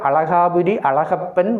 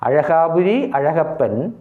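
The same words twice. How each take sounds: First: The middle consonant is an ordinary L sound. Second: The middle consonant is a retroflex zh sound. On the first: The speaker calls it wrong. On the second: The speaker calls it right.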